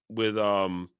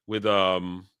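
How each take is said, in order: Both takes have the same delivery.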